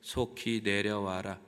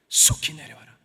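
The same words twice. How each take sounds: First: It is read flatly without emotion. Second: It is read with strong emotion.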